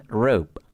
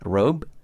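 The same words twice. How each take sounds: First: "rope" ending in a voiceless P; final P sound. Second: "Robe" ending in a voiced B; final B sound. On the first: Teacher shows there is a difference, voiceless P closing "rope". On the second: Teacher shows there is a difference, voiced B closing "Robe". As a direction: keep the voice on into the B of "Robe". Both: Shown as a demonstration. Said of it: "Ada perbedaan".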